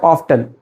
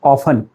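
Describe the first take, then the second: First: "often" with the t sounded, of-ten; "often" with an audible t in the middle. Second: "often" with the t left out, off-en; "often" with no t in the middle; often, silent t. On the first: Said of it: "not often". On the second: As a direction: say "often" as offen. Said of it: "the correct pronunciation of this word is often". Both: Shown as a demonstration.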